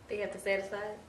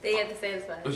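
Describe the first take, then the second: First: It ends with a rising, questioning tune. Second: It ends with a falling, firm tune.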